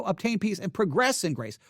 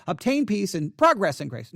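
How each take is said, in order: First: Progress stressed on the second syllable, pruh-GRESS; corrected verb reading. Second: Progress stressed on the first syllable, PROG-ress; mistaken noun reading. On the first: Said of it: "would be the correct way". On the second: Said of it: "I kept reading it". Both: Shown as a demonstration.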